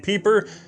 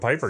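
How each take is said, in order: First: The name is said the original, non-American way. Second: The name is said the Americanized way. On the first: The speaker calls it right. "the correct pronunciation would be Peeper" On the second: The speaker calls it wrong. "I am keeping this Americanization"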